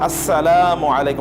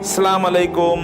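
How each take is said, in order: First: Every syllable is said clearly and fully. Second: The opening syllables are clipped and shortened. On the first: The speaker calls it right. "আরেকটু সুন্দর করে বলতে হবে" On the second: The speaker calls it wrong. "Not সালাম আলাইকুম"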